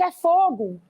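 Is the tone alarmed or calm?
alarmed. It is shouted in alarm.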